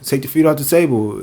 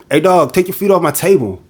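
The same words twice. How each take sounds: First: Said in the usual way. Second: Higher, blunt command; buddy's blunt order. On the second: Retold or imitated. Friend telling his buddy to take feet off the table, blunt. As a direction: bark it at your friend, mildly hammed-up. Friend scolds among the boys.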